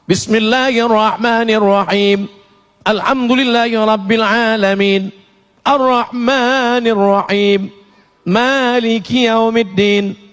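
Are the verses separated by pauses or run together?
separated. It pauses after each verse.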